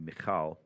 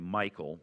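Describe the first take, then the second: First: The name has a Hebrew pronunciation. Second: The name has an American English pronunciation. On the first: "proper Hebrew would be" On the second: "Most Americans say"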